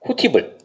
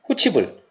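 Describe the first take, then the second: First: The middle consonant is a plain 't' sound. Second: The middle consonant is a 'ch' sound. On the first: The final consonant is carried over to the next syllable. "뒤에 비어있네? 넘겨야지" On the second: The final consonant is carried over and palatalized. "티귿이 이를 만났으니까 선생님 이거 구개음 현상이 일어나요"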